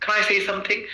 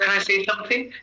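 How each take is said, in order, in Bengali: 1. Can দুর্বল ও যুক্ত; say-তে জোর পড়ে। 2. Can দুর্বল ও যুক্ত; say-তে জোর পড়ে।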